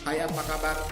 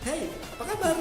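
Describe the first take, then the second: First: The greeting is said in a flat, even pitch. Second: The greeting is said with lively, varied pitch. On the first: The speaker calls it wrong. "datar-datar saja" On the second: The speaker calls it right. "Itu tepat nadanya, intonasinya tepat"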